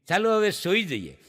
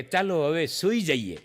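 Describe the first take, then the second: First: Said in the usual way. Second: Sleepy fiancée. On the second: Retold or imitated. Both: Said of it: "ઓલી પાંચ વાગે ઓલી એમ કહે".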